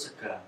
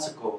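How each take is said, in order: First: The word ends in an a sound. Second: The word ends in an o sound.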